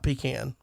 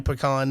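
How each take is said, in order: First: PECAN said "PEE-can"; pecan with "pee" first and a flat A ending; rejected pronunciation. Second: PECAN said "puh-KAHN"; pecan with a long "ah" ending; preferred pronunciation. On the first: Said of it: "it's definitely pecan, not pecan". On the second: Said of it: "not pecan". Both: Shown as a demonstration.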